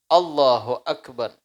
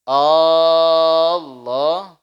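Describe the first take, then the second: First: The opening vowel of Allah is kept short. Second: The opening vowel of Allah is drawn out long. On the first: The opening takbir is valid. The speaker calls it right. "Tidak boleh dipanjangkan" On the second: The opening takbir is not valid. The speaker calls it wrong. "A-nya hamzahnya panjang. Ini tidak sah"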